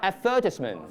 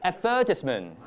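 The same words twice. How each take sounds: No difference in how they are said.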